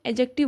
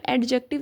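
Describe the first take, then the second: First: एडजेक्टिव with the d silent, e-jective; correct pronunciation. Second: एडजेक्टिव said with a clear d, ed-jective as in ad; wrong pronunciation. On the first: Teacher shows MCAT students the right pronunciation with the d silent. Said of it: "इसको हम एडजेक्टिव बोलते हैं". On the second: Teacher shows MCAT students the mistaken pronunciation with the d sounded. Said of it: "इसको हम एडजेक्टिव नहीं बोलेंगे". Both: Shown as a demonstration.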